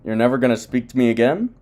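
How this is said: It is said as a question.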